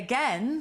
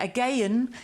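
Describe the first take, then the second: First: It is said with two plain syllables. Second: It is said with an extra syllable, locally.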